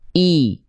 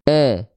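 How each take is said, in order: First: The vowel sounds like a clear, high i. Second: The vowel sounds like a flat, open e. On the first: The speaker calls it right. "Maka angkat tengah lidahnya" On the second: The speaker calls it wrong. "kalau tengah lidah kita nggak diangkat"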